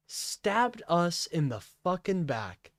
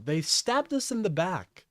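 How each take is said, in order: First: "Stabbed us" stretched out, higher and deliberate; slow, indignant repeat hammering "Stabbed"; slow emphasis. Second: Said in the usual way. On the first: Real, not acted. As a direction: space out each word, leaning on "fucking back".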